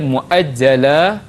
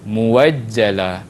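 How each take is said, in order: First: A glottal stop comes before the second syllable. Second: A w sound comes before the second syllable. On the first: "Asal dia" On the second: "tukar kepada"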